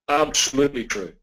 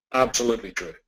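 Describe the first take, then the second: No difference in how they are said.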